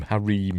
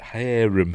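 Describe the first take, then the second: First: "harem" said as huh-REEM; "harem" rhyming with dream; stress on second syllable. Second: "harem" said as HAIR-um; "harem" starting like hair, unstressed -um; stress on first syllable. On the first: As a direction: say "harem" with a long ee, stressed at the end. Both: Shown as a demonstration. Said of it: "I don't know how to pronounce it".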